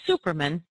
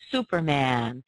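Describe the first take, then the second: First: The last vowel is a reduced uh sound. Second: The last vowel is a full open a sound. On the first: The speaker calls it wrong. "we don't say" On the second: The speaker calls it right. "We really do say Superman. ... keep the ah"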